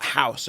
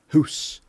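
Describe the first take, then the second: First: The vowel is a broad American 'ow' sound. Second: The vowel is a raised Canadian sound, near 'oo'. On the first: The speaker calls it wrong. "it's not house, Americans" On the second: The speaker calls it right. "It's hoose"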